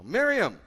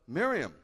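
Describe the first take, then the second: First: "Miriam" called much louder and higher; Jesus repeating "Miriam", stronger; Yeshua calling her name. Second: Raised, louder call of her name; Jesus calling "Miriam" at the tomb; Yeshua calling her name. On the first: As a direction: call out "Miriam" with feeling. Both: Acted. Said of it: "Yeshua said to her".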